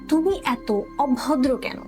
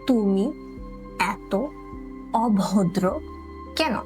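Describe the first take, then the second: First: The sentence is said at normal speed. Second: The sentence is said slowly.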